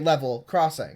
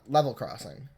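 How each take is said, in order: First: The two words are said separately. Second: The two words run together as one. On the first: The speaker calls it right. "it's two. So you say level crossing" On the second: The speaker calls it wrong. "not level crossing"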